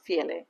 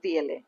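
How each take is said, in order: First: The word begins with an f sound. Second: The word begins with a v sound. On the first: The speaker calls it right. "It's ফিএলএ" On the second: The speaker calls it wrong. "Not ভিএলএ"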